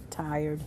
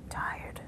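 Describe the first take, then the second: First: Said in the usual way. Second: Breathy, voiceless, much softer Tired; tired whisper. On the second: Shown as a demonstration. Teacher showing tired to the class, whispered. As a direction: whisper it, worn out.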